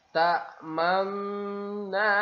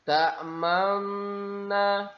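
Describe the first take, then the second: The two takes are said the same way.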